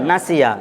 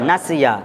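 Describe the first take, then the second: No difference in how they are said.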